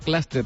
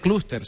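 First: The first vowel sounds like an English vowel. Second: The first vowel is a clear Spanish u. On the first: The speaker calls it wrong. "estoy haciendo como cuando dicen los ingleses club" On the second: The speaker calls it right. "esto se dice clúster"

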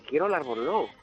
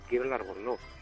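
First: It is said louder, at a moderate volume. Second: It is said very quietly, under the breath. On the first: The speaker is growing insistent. "Cada vez elevaba más el tono de voz" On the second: The speaker is shy about asking. "Así muy bajito"

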